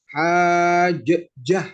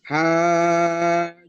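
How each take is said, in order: First: The middle consonant is released with an echoing bounce. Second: The middle consonant is held with no bounce. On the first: The speaker calls it wrong. "nggak boleh" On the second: The speaker calls it right. "harus langsung"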